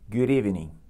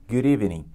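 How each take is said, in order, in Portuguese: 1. O D final emenda direto na vogal seguinte. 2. O D final emenda direto na vogal seguinte.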